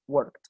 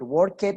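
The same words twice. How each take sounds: First: The -ed ending is a plain t sound. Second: The -ed ending is voiced as an extra syllable. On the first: The speaker calls it right. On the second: The speaker calls it wrong.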